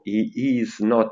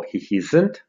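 First: Said in the usual way. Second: "isn't" joined, with the o dropped; forma contratta. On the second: Shown as a demonstration. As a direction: run is and not together as "isn't". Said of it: "Is not si scrivono tutti attaccati". ("isn't" contratto, senza la o di not)

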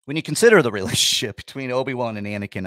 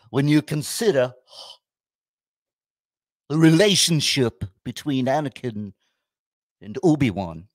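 First: Fast, breaking into a laugh; real giggle at himself; laughing restart. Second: A hint of a pompous college professor; mock professor. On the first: Real, not acted. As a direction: rush it through a chuckle. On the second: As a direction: lecture it like a professor. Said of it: "I look like a frickin' college professor".

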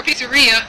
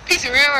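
First: "pizzeria" with an "ee" sound, peet-suh-REE-uh; common pronunciation. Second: "Pizzeria" with an "air" sound, pizz-uh-RAIR-uh; alternate pronunciation. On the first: Vlogger offering both ways to a companion, common pronunciation. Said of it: "I've heard it both ways". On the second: Vlogger answering how you pronounce that, alternate pronunciation. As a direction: say "Pizzeria" to rhyme with "area". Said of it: "How do you pronounce that?". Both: Shown as a demonstration.

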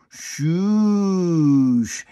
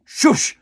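First: Drawn-out, sweeping shoosh; long wiping shoosh. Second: Sharp, loud, high shush; aggressive shush. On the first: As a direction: smear it slowly over everything. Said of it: "Or you can just go". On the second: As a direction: snap it at the anxiety. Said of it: "a little more aggressive". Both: Shown as a demonstration.

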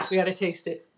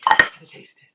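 First: Said in the usual way. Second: Eager whispered repeat; breathless whisper to herself. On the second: Real, not acted. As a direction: hush it like a secret craving.

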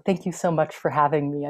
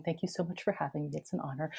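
First: Said in the usual way. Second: Quick, hushed formal thanks; formal courtesy, tossed off quietly; more formal. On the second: Shown as a demonstration. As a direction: say the polite formula softly and briskly. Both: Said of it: "more formally, I should be saying".

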